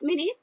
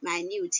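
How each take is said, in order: First: The stress is on the first syllable. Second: The stress is on the second syllable. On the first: A unit of time. The speaker calls it wrong. "Not minute" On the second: Very small. The speaker calls it right. "but minute here, the pronunciation"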